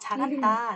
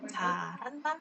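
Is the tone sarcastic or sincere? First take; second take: sincere; sarcastic. First: It sounds warm and sincerely praising. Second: It sounds mocking and sarcastic. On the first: The listener is praised for doing well. "엄마가 어 잘한다. 진짜 잘한다" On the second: The listener is mocked for a mistake. "뭔가 실수를 하거나 뭔가 잘못했어. 그런데 그럴 때 이런 경우가 있어요"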